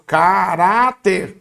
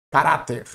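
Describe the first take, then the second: First: "Caráter" slowly stretched into ca, rá, ter; syllable by syllable. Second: Said in the usual way. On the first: Shown as a demonstration. Teacher has students separate syllables along, "Caráter" slowly syllable by syllable. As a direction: draw out each syllable of "Caráter", leaning on the middle one. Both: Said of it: "separa as sílabas comigo".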